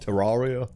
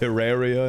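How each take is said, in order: First: The middle vowel differs from 'terrarium'. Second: The middle vowel sounds like in 'terrarium'. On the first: The speaker calls it wrong. "and not Terraria" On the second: The speaker calls it right. "it's pronounced Terraria ... Like terrarium"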